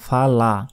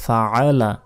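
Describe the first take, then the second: First: The middle throaty ayn sound is left out. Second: The middle throaty ayn sound is clearly pronounced. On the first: The speaker calls it wrong. "এখানে আইনের উচ্চারণই করি না" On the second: The speaker calls it right. "এটা হতে বলতে হবে ফাআলা"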